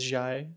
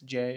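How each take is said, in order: First: The vowel sounds like 'eye'. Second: The vowel sounds like 'ay' in 'day'. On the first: The speaker calls it wrong. "mispronounce J as Jai" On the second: The speaker calls it right. "mispronounce J"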